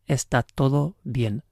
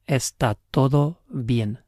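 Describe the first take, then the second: The two takes are said the same way.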